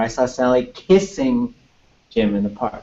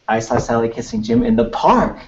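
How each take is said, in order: First: The word kissing carries the main stress. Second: The word park carries the main stress. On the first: The sentence is about what they were doing. "So there's something about kissing" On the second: The sentence is about where it happened. "I don't know why the park would be like, whoa"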